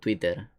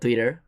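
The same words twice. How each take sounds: First: The word is pronounced with Spanish sounds. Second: The word is pronounced with English sounds. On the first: "Si lo españolizo, digo Twitter" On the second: "digo Twitter en lugar de"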